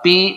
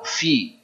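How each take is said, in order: First: The word begins with a p sound. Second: The word begins with an f sound. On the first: The speaker calls it wrong. "Jangan salah. Pi bukan" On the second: The speaker calls it right.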